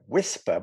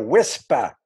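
First: The word is said without a New York accent. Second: The word is said in a New York accent.

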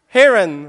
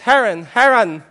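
First: The name is said with a Western pronunciation. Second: The name is said with a non-Western pronunciation.

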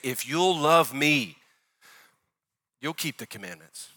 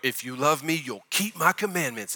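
First: It sounds gentle, like a loving invitation. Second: It sounds stern, like a rule or judgment.

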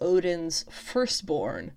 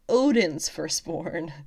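First: The stress falls on the word firstborn. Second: The stress falls on the word Odin's. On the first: The point is that she was born first. The speaker calls it wrong. "I put emphasis on the wrong word" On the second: The point is whose child she is, not the mother's. The speaker calls it right. "The emphasis was supposed to be on Odin's firstborn"

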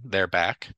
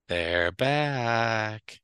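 First: It is said flat, with no intonation. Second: It is said with lively, dramatic intonation. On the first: "I'll just say this without intonation" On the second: "Or if I say it"

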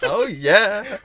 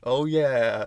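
First: It is said in an enthusiastic voice. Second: It is said in a flat voice.

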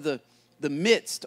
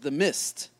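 First: The word is said with a d sound. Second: The word is said without a d sound. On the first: The speaker calls it right. "or the midst" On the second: The speaker calls it wrong. "as people often mispronounce it"

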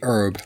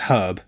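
First: The h is silent, American style. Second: The h at the start is pronounced.

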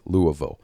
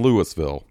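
First: The word is said without an s sound. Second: The word is said with an s sound. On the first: The speaker calls it right. "I said it right" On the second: The speaker calls it wrong. "Get the fuck out of here with that Louisville shit"

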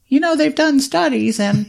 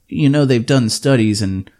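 First: It is said in a put-on voice imitating his wife. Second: It is said in his own normal voice.

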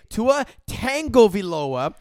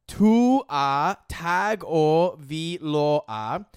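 First: The surname begins 'tango', with an added 'n'. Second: The surname begins 'tago', with no 'n' sound. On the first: The speaker calls it wrong. "mispronounce it when you say Tua Tagovailoa. There's no tango in his name" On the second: The speaker calls it right. "His name is Tua Tagovailoa"

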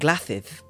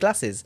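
First: The s sounds are said as th. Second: The s sounds are said as clear s.

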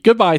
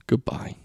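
First: It is said in a cheerful, upbeat way. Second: It is said in a flat, low-energy way.

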